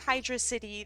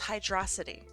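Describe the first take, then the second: First: It is split into two separate words. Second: It is run together as one single word. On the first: The speaker calls it wrong. "If you say Hydro City, then then there are some problems" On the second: The speaker calls it right. "It's all one word"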